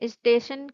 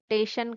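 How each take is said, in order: First: The word begins with the s sound. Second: The word begins without the s sound. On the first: The speaker calls it right. "स्टेशन के स्थान पर" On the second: The speaker calls it wrong. "जब शब्द में किसी अक्षर का प्रयोग न किया जाए"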